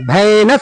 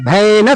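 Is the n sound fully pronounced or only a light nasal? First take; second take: full; full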